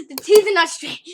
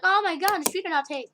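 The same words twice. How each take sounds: First: Mock complaint shouted, higher and louder; loud mock complainer. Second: Mock whiny complaint, raised pitch; mock complainer. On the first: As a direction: yell it like an annoyed critic. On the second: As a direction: play a fussy complainer.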